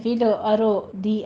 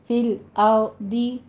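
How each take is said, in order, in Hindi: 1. शब्द को एक अतिरिक्त स्वर डालकर तोड़कर बोला जाता है। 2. शब्द को सहज तरीके से, बिना अतिरिक्त स्वर के बोला जाता है।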